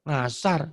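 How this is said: The word begins with a nasal 'ng' sound. The speaker calls it wrong. "kalau bilang asar tuh ngasar gitu loh"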